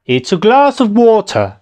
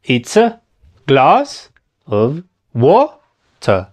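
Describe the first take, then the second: First: "It's a glass of water" joined up, high on glass and falling on water; flowing, higher-pitched model of "It's a glass of water"; musical English intonation. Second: "It's a glass of water" very slow, chunk by chunk; slow teaching breakdown of "It's a glass of water"; broken-down demo. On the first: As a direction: say "It's a glass of water" as one lilting phrase. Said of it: "¿Ya viste cómo va así el idioma?". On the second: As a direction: say "It's a / glass / of / wa / ter" with pauses between pieces. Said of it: "¿Ya viste? Y así va". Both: Shown as a demonstration.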